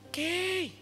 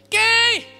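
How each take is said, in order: First: The name is called softly. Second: The name is shouted loudly.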